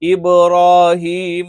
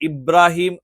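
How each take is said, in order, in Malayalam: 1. ഈ വാക്ക് അവസാനിക്കുന്നത് അന്തിമ 'a' സ്വരത്തിലാണ്. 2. ഈ വാക്ക് അവസാനിക്കുന്നത് അന്തിമ 'm' വ്യഞ്ജനത്തിലാണ്.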